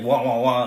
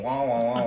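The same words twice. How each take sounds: First: The sounds are said in a hurried, frantic way. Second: The sounds are said in a calm, even way. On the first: "it's like frantic wah" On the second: "the adults are just long legs and they're going wah"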